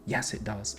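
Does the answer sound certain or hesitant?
certain. It sounds finished and certain. The point is fully clear to them.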